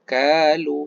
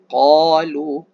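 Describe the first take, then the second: First: The first consonant is thin, like a plain k. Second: The first consonant is thick, from deep in the throat. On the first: The speaker calls it wrong. "Jangan sebut kalu, salah" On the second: The speaker calls it right. "Ini qalu"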